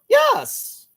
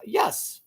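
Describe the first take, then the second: First: A yes jumping way up high and louder; squeaky high yes. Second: Said in the usual way. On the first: Retold or imitated. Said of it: "she goes high pitched". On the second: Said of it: "Or does she go".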